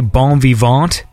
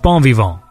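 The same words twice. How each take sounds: First: The final T sound is pronounced. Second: The final T sound is silent. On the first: The speaker calls it wrong. "Do people pronounce the T?" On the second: The speaker calls it right. "No, it's bon vivant, right?"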